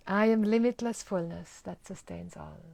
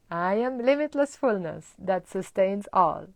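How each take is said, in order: First: Even, settled statement; calm affirmation. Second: Strong, louder declaration; loud confident affirmation; empowered affirmation. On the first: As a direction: say it calmly and sincerely. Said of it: "what a difference". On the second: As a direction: proclaim it with conviction. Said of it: "We're changing that pattern". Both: Shown as a demonstration.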